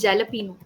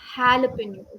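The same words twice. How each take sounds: First: The word begins with a J sound. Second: The word begins with an H sound. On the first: The speaker calls it wrong. "people mostly call jalapeno" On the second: The speaker calls it right. "the J A is pronounced as jalapeno"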